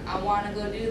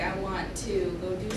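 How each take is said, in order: First: 'Want to' is reduced to 'wanna'. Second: 'Want to' is said as two full words. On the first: The speaker calls it wrong. "You don't say I wanna" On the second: The speaker calls it right. "You say I want to go do something"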